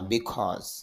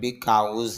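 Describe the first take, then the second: First: The second syllable sounds like 'cause'. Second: The second syllable sounds like 'cows'. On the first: The speaker calls it right. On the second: The speaker calls it wrong. "আসলে বিকাউজ না"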